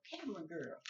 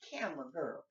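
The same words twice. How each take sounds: First: Said in the usual way. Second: Calling out louder across the room; yelling across the room. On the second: Real, not acted. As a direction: raise your voice to reach her. Calling to camera girl.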